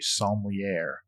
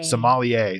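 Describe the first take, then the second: First: The word is said with a Texan pronunciation. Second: The word is said with a standard pronunciation. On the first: The speaker calls it wrong. "I pronounced it in Texan" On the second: The speaker calls it right.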